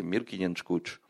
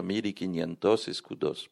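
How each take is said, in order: First: « mille quinientos escudos » dit vite, voyelles avalées, presque « mil kinanch kouch »; syllabes avalées. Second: « mille quinientos escudos » articulé syllabe par syllabe, comme écrit; toutes les syllabes. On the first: Retold or imitated. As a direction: avaler les syllabes comme un Lisboète. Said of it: "c'était pas ça". (imitation rapide de l'accent portugais, syllabes mangées) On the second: Shown as a demonstration. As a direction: dire « quinientos escudos » en détachant bien chaque son. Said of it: "pour dire mille cinq cents". (prononciation scolaire, tout articulé)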